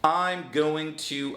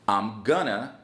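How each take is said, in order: First: Each word is said separately and in full. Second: 'Going to' is blended into one reduced word.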